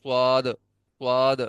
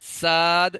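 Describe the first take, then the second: First: صاد said with rounded lips, the common mistake; imitating people who round their lips on صاد; rounded-lip suad. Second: صاد said with lips not rounded; the right unrounded صاد; correct suad. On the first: Teacher mimics the common wrong صاد. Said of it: "بہت سارے لوگ اس طرح پڑھ لیتے ہیں". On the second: Teacher corrects students with the proper صاد. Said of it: "ہونٹ گول نہیں کرنے بھائی". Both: Shown as a demonstration.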